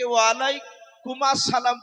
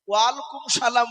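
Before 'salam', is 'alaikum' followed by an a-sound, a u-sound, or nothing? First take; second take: a-sound; nothing. First: An 'as' sound joins alaikum to salam. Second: Alaikum runs straight into salam with no vowel. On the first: "এগুলো সব ভুল হবে বাপ।" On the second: "এগুলো সব ভুল হবে বাপ।"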